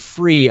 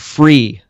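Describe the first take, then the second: First: The word is said plainly, without extra emphasis. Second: The word is said with strong extra emphasis.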